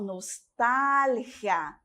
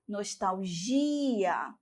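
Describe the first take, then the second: First: "nostalgia" slowly, stressed TAL, g as a throaty h; Spanish stress on TAL. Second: "nostalgia" slowly, stressed GI with a zh sound; Portuguese stress on GI. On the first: Teacher shows Spanish, slowly stressing TAL in "nostalgia". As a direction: stretch TAL, rasped g in "nostalgia". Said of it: "Em espanhol". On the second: Teacher contrasts Portuguese, slowly stressing GI in "nostalgia". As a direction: stretch GI in "nostalgia", ending gi-a. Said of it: "Em português". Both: Shown as a demonstration.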